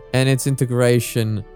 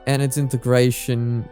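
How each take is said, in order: Both takes have the same delivery.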